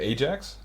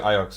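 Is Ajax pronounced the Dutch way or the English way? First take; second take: English; Dutch. First: It is said with the English pronunciation. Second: It is said with the Dutch pronunciation. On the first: "the English pronunciation is like, is it Ajax?" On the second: "we say Ajax"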